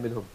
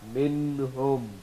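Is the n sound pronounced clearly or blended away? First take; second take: blended; clearly. First: The n sound is blended and not clearly pronounced. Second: The n sound is pronounced clearly and distinctly. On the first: The speaker calls it wrong. "You can't say minhum" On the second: The speaker calls it right. "You say minhum with izhar"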